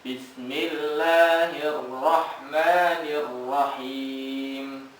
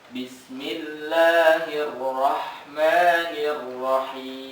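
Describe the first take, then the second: No difference in how they are said.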